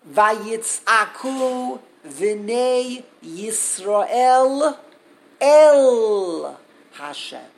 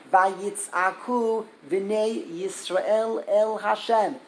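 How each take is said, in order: First: Loud, very slow, stretched out verse; drawn-out cry. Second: Said in the usual way. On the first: Acted. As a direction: let the verse ring out like a cry, swelling on el Hashem. Dramatic reading of the cry verse.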